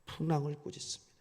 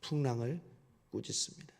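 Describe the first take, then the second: First: 풍랑을 punched out firmly, the line brisk; stress on 풍랑을. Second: 풍랑을 꾸짖습니다 repeated softly, fading to near hush. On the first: Preacher contrasting the storm with the disciples, 풍랑을 stressed. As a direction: drive the word 풍랑을 home, quick and firm. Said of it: "제자들을 먼저 꾸짖는 게 아니라". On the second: Preacher repeats the point to the congregation, hushed and soft. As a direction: let 풍랑을 꾸짖습니다 sink down quietly. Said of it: "먼저". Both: Shown as a demonstration.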